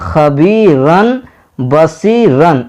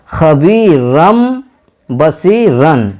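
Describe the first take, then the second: First: The first word ends with an n sound. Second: The first word ends with an m sound. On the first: The speaker calls it wrong. "इस तरह नहीं पढ़ेंगे" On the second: The speaker calls it right. "मीम से बदलना है। तो कैसे पढ़ेंगे"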